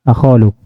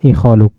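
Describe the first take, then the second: First: The word begins with an 'a' vowel. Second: The word begins with an 'i' vowel. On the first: This is the form the grammatical rule predicts. "kiasinya akhaluk" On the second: This is how most Arabs actually say it. "dia baca ikhaluk di kasroh hamzanya"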